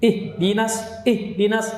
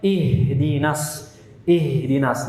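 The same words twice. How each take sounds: First: Higher "Ih, dinas" with "ih" chopped and a gap; broken wrong-way "ih / dinas"; cut-off H. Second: "ihdinas" with H running unbroken into "dinas"; drawn-out airy "ih" joined to "dinas"; flowing H. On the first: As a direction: stop the air after "ih". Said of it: "diputus aliran suaranya". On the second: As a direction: let breath stream after "ih". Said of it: "harusnya ih". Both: Shown as a demonstration.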